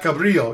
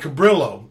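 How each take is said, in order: First: The name is said in a Spanish way. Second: The name is said in a local anglicized way. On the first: This is how outsiders would say it. "Not Cabrillo" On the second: This is how the locals say it. "the beach is called Cabrillo"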